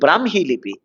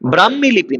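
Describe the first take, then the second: First: The h sound comes after the m. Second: The h sound comes before the m. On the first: The speaker calls it right. "উচ্চারণে ম হ" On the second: The speaker calls it wrong. "ব্রাহ্মী লিপি নয়"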